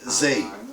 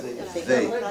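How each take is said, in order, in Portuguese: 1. A palavra começa com um z vibrando. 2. A palavra começa com a língua entre os dentes. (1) "Mas não pode também parecer zei" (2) "A língua tem que sair para fora"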